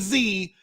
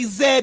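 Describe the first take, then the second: First: The letter is said the American way. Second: The letter is said the British way.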